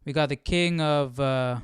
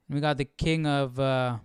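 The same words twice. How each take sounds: The two takes are said the same way.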